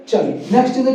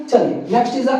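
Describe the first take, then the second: Both takes have the same delivery.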